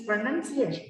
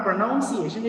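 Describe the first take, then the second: First: "pronunciation" said as "pro-nun-ciation"; "pronunciation" with a short second vowel; correct pronunciation. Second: "pronunciation" said as "pro-noun-ciation"; "pronunciation" with an OW second vowel; mispronounced word. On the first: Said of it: "it is pronunciation". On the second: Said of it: "not pronunciation". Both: Shown as a demonstration.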